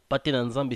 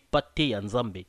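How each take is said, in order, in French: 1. Le deuxième mot commence par un son n. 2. Le deuxième mot commence par un son y. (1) "ça se disait par nos ancêtres avec leur accent à l'époque" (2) "Maintenant on dit pate yanzambe"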